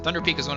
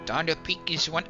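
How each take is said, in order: First: It is said in the speaker's normal accent. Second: It is said in a put-on Scottish accent.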